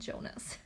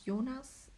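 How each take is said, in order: First: The name is said with non-German pronunciation. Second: The name is said with German pronunciation. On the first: The speaker calls it wrong. "my husband keeps saying Jonas" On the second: The speaker calls it right. "in German it's Jonas"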